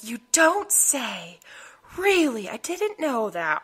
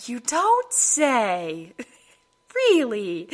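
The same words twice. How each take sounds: First: Slow, heavy sarcasm; sarcastic. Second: Slow sarcastic drawl; dripping with sarcasm. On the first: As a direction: roll the eyes, slowly. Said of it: "the sarcasm was real". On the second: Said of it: "My sarcasm came out full force". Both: Retold or imitated.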